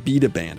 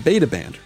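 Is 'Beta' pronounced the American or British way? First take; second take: British; American. First: Beta is pronounced in a British way. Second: Beta is pronounced in an American way.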